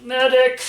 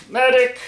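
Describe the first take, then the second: First: High joking shout for help; mock call for a medic. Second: Louder, higher second call; man down shout. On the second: Pretend. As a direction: shout it again, a bit stronger. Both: Cut himself, calls for help.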